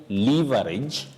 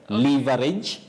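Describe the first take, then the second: Both takes have the same delivery.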